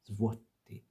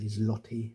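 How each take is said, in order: First: The sound after the z is a W. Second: The sound after the z is an L. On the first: The speaker calls it right. "it isn't pronounced that way. It's złoty" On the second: The speaker calls it wrong. "you might be inclined to say zloty as, as an English speaker"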